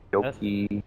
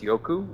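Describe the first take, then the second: First: The name ends in an 'ee' sound. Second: The name ends in an 'oo' sound. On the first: The speaker calls it wrong. "I just keep saying Yoki" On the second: The speaker calls it right. "I know it's pronounced Yoku"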